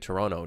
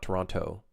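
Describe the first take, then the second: First: The name is said the way locals say it. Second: The name is said the way tourists say it. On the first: The speaker sounds like a local. The speaker calls it right. "just say Toronto" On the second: The speaker sounds like a tourist. The speaker calls it wrong. "not Toronto"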